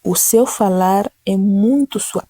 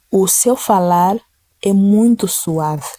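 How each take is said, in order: First: Slow, even and gentle; slow gentle repeat. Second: Slow, gentle reading. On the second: Preacher reading the verse to the congregation, slow and gentle. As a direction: read it slowly and tenderly. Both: Shown as a demonstration.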